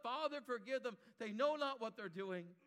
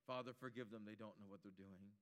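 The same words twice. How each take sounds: First: A touch louder, higher cry; Jesus crying out from the cross for his killers. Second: Jesus quietly praying for his killers; hushed prayer. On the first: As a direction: lift it out as a plea. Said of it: "he cries out". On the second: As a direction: lower and much softer. Cross words repeated, hushed. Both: Acted.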